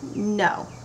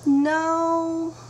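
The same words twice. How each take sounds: First: The no sounds firm and final. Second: The no sounds hesitant and unsure.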